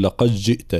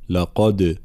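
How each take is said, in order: First: لقد جئت with د merged into ج; wrong merging. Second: لقد with bounced د; correct qalqala. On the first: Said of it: "لا نقول". (إدغام الدال خطأ) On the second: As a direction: stop on لقد with a clear bounce. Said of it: "لا". (قلقلة الدال) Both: Shown as a demonstration.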